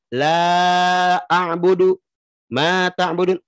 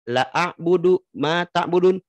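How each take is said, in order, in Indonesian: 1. Vokal pada la dibaca panjang. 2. Vokal pada la dibaca pendek.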